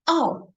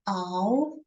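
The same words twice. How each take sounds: First: The pitch falls sharply from high to low. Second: The pitch rises from middle to high.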